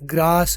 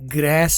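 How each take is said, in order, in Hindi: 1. यह ब्रिटिश लहजे में बोला जाता है। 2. यह अमेरिकी लहजे में बोला जाता है। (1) "ब्रिटिश है" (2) "अमेरिकन है"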